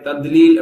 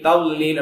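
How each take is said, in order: First: The middle consonant is pronounced as a d sound. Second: The middle consonant is pronounced as an l sound. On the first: "தால் மாதிரி தத்லீல் அப்படி சொல்லுவாங்க அதுவும் தப்பு" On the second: "லாம பயன்படுத்தி சொல்லுவாங்க"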